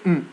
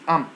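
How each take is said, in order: First: The vowel is reduced to a weak schwa. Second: The vowel is a full, clear vowel. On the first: The speaker calls it wrong. "we don't say mm" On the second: The speaker calls it right. "We say am"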